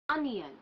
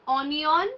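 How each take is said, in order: First: The O is said with an 'a' sound. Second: The O is said with an 'o' sound. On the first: The speaker calls it right. "the sound of this letter O is A" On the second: The speaker calls it wrong. "it is not onion"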